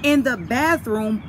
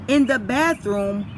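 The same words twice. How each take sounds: The two takes are said the same way.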